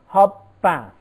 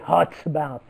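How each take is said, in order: First: The final sound of hot blends into the next. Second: The final sound of hot stays unchanged. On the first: The speaker calls it right. "We say" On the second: The speaker calls it wrong. "We do not say"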